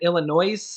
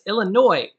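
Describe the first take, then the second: First: The word ends with an audible S sound. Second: The word ends without any S sound. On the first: The speaker calls it wrong. "I'm just so used to always saying it Illinois" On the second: The speaker calls it right. "It's Illinois, right? Right"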